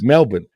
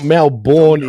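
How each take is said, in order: First: It is said with the local Australian pronunciation. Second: It is said with a typical American pronunciation. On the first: The speaker calls it right. "It's Melbourne" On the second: The speaker calls it wrong. "a lot of Americans usually say Melbourne"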